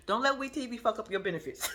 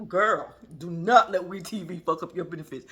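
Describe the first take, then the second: First: Words breaking into laughter; laughing at her own advice; laughing while talking. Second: Put-on serious advice to a girlfriend; firm emphatic warning. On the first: Real, not acted. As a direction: giggle through the warning. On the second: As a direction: stress on "not", louder and deliberate. Repeats advice firmly.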